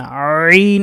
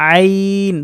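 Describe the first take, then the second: First: আইন with a hard, loud squeeze on the opening; over-pressed. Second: আইন light and thin, held long without pressing; thin letter. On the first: Teacher warning students off this way, over-pressed আইন. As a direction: press heavily into the start of আইন. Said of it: "এভাবে ডাবানো যাবে না". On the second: Teacher showing students the right way, thin আইন. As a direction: let আইন out long and unforced from mid-throat. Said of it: "আইন পাতলা". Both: Shown as a demonstration.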